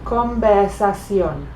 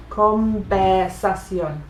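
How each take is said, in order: First: Conversación said slowly, v softened toward b; drawn out teaching demo of Conversación; slow demo word. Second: Conversación said slowly as convbersación with b; slow teaching demo, v as b; slow Spanish b sound. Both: Shown as a demonstration. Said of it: "practicar saying some B words".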